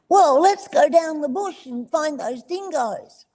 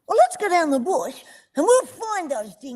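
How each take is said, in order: First: It is said flatly, with little energy. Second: It is said with lively, high energy.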